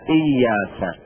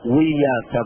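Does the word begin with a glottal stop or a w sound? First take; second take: glottal stop; w sound. First: The word begins with a glottal stop. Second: The word begins with a w sound. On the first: The speaker calls it right. "إياك بالهمزة" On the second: The speaker calls it wrong. "لا نقول وياك"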